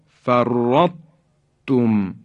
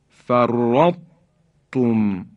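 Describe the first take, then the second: No difference in how they are said.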